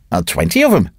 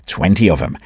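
First: Placid. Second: Lower, calm restatement; placid, calm repeat. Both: Acted. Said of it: "said Dravot placidly".

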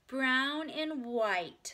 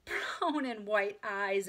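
First: Put-on Ramona's higher, slow, loud child voice; prompt little girl. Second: Mildly amused grown-up echo, slow; delighted exclamation. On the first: Little Ramona answers about her eye colour, prompt and drawn out. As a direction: draw it out proudly like a small child. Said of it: "said Ramona promptly". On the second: Friend echoes the child's answer, exclaiming with mild delight. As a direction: repeat it slowly as if charmed by a child. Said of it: "exclaimed the friend". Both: A narrator's reading.

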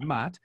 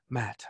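First: Put-on Japanese-accented "Matt", vowel opened to "Maht"; "Matt" said as "Maht" in a lightly imitated Japanese accent; broken English accent. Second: Said in the usual way. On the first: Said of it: "beautiful broken English accent". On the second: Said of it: "And she goes".

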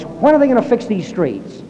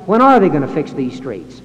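First: "are" punched, driver raising his voice; "are"를 세게, 짜증 섞인 운전자처럼 강조; stress on ARE. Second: A second way of inflecting it, "are" still stressed; different inflection. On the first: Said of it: "raises his voice". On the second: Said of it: "Or he might inflect it". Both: Shown as a demonstration.

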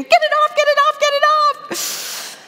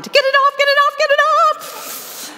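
First: Very high, loud mock scream of a terrified girl. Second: High, loud panicked shriek; panicked scream. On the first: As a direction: shriek like a scared little girl with a leech. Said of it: "she came to me screaming". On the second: Retold or imitated. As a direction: shriek in panic to get the leech off. Panicking at a leech on himself.

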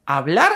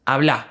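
First: Said in the usual way. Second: Habla said with the stress on the final -bla, no r; end stress, no final r. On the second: Shown as a demonstration. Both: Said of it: "remove the final R and stress the word at the end".

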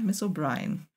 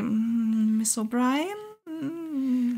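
First: Much softer, lower, falling "Miss O'Brien."; soft resigned falling "Miss O'Brien."; quiet confirmation. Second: Softly drawn out, very slow, questioning "Miss O'Brien?"; slow soft questioning "Miss O'Brien?" with a rise; hesitant murmur. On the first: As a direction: drop "Miss O'Brien." low and quiet as a final answer. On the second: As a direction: stretch "Miss O'Brien?" out slowly and softly, unsure. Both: A narrator's reading. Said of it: "murmelte Maudsley".

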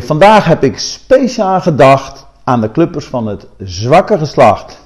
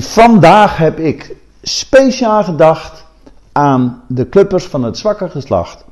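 First: "zwakke" set apart as if in quote marks; zwakke tussen aanhalingstekens. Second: Said in the usual way. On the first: Shown as a demonstration. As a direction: lean on "zwakke", pitch lifting, to mark it as quoted. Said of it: "Of, eh, tussen aanhalingstekens". (nadruk op "zwakke", als tussen aanhalingstekens) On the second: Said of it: "dat staat gelukkig zonder aanhalingstekens".

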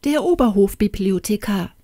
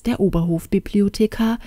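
First: Mildly imperious summons; a touch of a curt royal order; imperious command. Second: Said in the usual way. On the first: A narrator's reading. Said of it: "herrschte sie die Kammerzofe an". (leicht herrisch befohlen)

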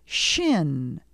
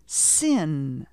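First: Shin with a clear sh at the start. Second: Sin with a clear s instead of sh. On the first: Teacher modelling Shin for learners. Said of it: "Repeat after me". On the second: Teacher contrasting Sin with Shin. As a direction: model Sin for echoing. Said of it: "the s sound". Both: Shown as a demonstration.

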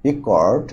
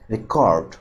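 First: রেকর্ড as a noun, front-stressed; first-syllable stress. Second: রেকর্ড as a verb, weight on its last syllable; second-syllable stress. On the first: Teacher giving a noun example, first-syllable stress on রেকর্ড. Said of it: "stress হবে প্রথম সিলেবলের উপর". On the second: Teacher giving a verb example, second-syllable stress on রেকর্ড. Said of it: "stress হবে দ্বিতীয় সিলেবলের উপর". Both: Shown as a demonstration.

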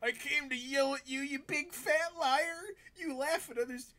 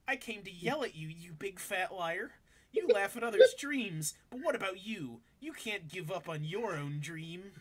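First: Very high, strained put-on voice; mock yell. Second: Lightly voiced impression, a little lifted; dramatic reading, much less squealed; Mike Dawson. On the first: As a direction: push the pitch way up for a cartoonish accusation. Acting out the character's yelled line. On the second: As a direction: read it as a lightly put-on character voice. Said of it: "Should I just read his voice like he's Mike Dawson?".

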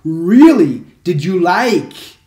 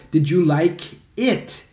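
First: Said in the usual way. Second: Slow Did you like it with a rising end; correct version. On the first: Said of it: "não posso falar". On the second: Shown as a demonstration. Teacher models the correct question slowly for students. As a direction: ask it slowly and clearly. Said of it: "Você tem que falar".

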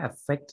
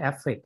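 First: "affect" with stress on the second syllable; correct pronunciation. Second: "affect" the common mistaken Thai way; wrong pronunciation. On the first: Lecturer showing students how it should really be pronounced, correct "affect". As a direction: say "affect" the proper English way, final consonants released. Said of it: "จริงๆต้องออกเสียงว่า affect ด้วย". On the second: Lecturer showing students how not to say it, mispronounced "affect". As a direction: say "affect" as the mispronunciation to avoid, final t dropped. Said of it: "ไม่ใช่ affect นะครับ".

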